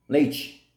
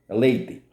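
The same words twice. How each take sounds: First: It is said in a Carioca coastal accent. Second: It is said in a Northeastern Brazilian accent. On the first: "Cariocas e baianos do litoral pronunciam leite" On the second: "No Nordeste, a palavra leite pronuncia-se leite, leite, não tem o E"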